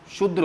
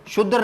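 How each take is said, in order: First: शुद्र with d and r joined, shudr; correct form. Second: शुद्र with a vowel before r, shud-dar; wrong form. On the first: Teacher giving students the right form, शुद्र as shudr. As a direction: say शुद्र with a tight dr cluster. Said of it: "शुद्र होता है". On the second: Teacher rejecting a form for students, wrong शुद्र as shud-dar. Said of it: "शुद्र नहीं होता". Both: Shown as a demonstration.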